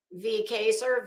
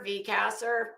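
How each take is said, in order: First: Kaser with a long a as in say; V Kaser, the a long like in face; reading Kaser from chat, long a as in day; name said Kaser. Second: Kasser with a short a as in cat; V Kasser, a flat short a like in mass; trying out Kasser, a short as in hat; name said Kasser. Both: Shown as a demonstration. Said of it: "or is it Kaser or Kasser".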